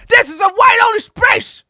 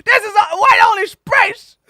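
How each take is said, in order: First: High, loud mocking bigot yell. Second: High, loud mocking bigot voice; a hammed-up gatekeeper, replayed. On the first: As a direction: bark it like a snooty gatekeeper. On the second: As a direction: repeat the snooty gatekeeper line. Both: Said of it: "It's like".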